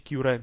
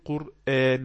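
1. تُنطق بأصوات إنجليزية، مثل: Kyuran. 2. تُنطق بأصوات عربية، مثل: Qur'an. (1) "ما يقولش كيوران" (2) "يقول قرآن"

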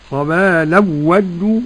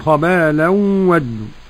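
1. تُدغم النون في الواو دون غنّة. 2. تُدغم النون في الواو مع الغنّة. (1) "عدم الغنة لخلف عن حمزة" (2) "والباقون خبالا ودوا"

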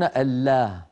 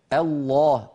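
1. اللام مرققة، بصوت رفيع واضح. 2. اللام مفخمة، بصوت غليظ ممتلئ. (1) "ولا يقولون" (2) "نطق اللام مفخمة وبالتالي الألف التي بعد اللام، هكذا"

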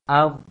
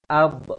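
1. Konsonan akhir berhenti dengan bersih tanpa gema. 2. Konsonan akhir dilepas dengan gema yang memantul.

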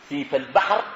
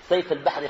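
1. المقطع الأول يُنطق بصوت 'i'. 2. المقطع الأول يُنطق بدون صوت 'i'. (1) "بكسر السين" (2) "الناس بينطقوها شنو؟ سيف البحر، خطأ"

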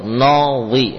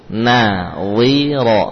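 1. Suku kata pertama diucapkan tebal dan bulat. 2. Suku kata pertama diucapkan tipis dan terbuka. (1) "Jangan sampai menebalkan nun ya, karena bertetangga dengan wa. ... ini keliru" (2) "Na dibaca dengan tipis"

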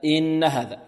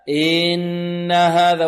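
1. الحركة الأولى تبقى قصيرة. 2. الحركة الأولى تُمَدّ مدًّا طويلًا. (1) "لا إن هذا" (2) "البعض يمط الهمزة، يمط حركتها، أي يمد حركتها"

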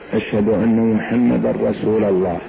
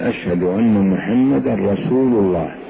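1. تنتهي كلمة 'rasul' بالحركة 'a'. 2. تنتهي كلمة 'rasul' بالحركة 'u'. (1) "لأنه نصب الخبر" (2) "لابد أن يقول أشهد أن محمد رسول الله حتى تفهم الجملة"

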